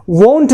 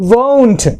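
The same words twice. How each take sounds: First: Won't with a short, unglided o; wrong pronunciation. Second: Won't with a long gliding o; correct pronunciation. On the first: Teacher shows what not to say, won't mispronounced. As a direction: say "won't" the mistaken way, vowel cut short. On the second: Teacher corrects the mistake, won't pronounced carefully. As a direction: say "won't" as WOHNT, vowel held. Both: Shown as a demonstration. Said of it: "won't नहीं होता".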